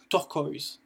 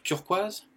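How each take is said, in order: First: Turquoise said as "tur-koyz"; English turquoise with OI as "oy", falling tone; English pronunciation. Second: Said in the usual way. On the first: Shown as a demonstration. Teacher shows learners the English word, English pronunciation of turquoise. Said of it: "ça se prononce O E". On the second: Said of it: "ça se prononce de la même façon".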